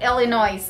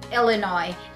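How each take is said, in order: First: The final S is sounded. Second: The final S is silent. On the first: The speaker calls it wrong. "not Illinois" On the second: The speaker calls it right. "There's a silent S"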